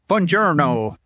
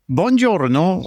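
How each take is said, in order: First: It is said with an American accent. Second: It is said with an Italian accent.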